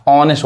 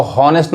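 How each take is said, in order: First: ऑनेस्ट with a silent h, opening straight on the vowel; correct pronunciation. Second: हॉनेस्ट with the h sounded at the start; wrong pronunciation. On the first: Teacher gives students the correct silent-h ऑनेस्ट. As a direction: drop the h and start ऑनेस्ट on the vowel. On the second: Teacher shows the wrong way to say हॉनेस्ट. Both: Shown as a demonstration. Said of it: "इसको हॉनेस्ट नहीं पढ़ते हैं".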